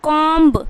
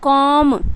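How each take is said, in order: First: A b sound is heard after the m. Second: No b sound is heard after the m. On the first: The speaker calls it wrong. "जिन्हें पता नहीं होगा ये rule तो क्या पढ़ेंगे" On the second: The speaker calls it right. "बी जो है वो साइलेंट हो जाएगा"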